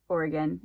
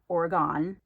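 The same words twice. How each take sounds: First: The name is said the way locals say it. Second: The name is said the way outsiders say it. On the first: The speaker calls it right. "it is pronounced Oregon" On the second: The speaker calls it wrong. "It's not Oregon"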